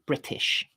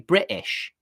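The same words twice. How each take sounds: First: The t is pronounced as a clear t. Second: The t is replaced by a glottal stop. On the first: The speaker calls it right. "basically just use a t sound" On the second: The speaker calls it wrong. "using glottal stops in place of a t sound"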